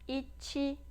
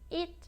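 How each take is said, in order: First: An extra 'ee' vowel follows the final consonant. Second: The word ends cleanly on the final consonant. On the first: The speaker calls it wrong. "tá errado" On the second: The speaker calls it right. "já memorizem de forma correta"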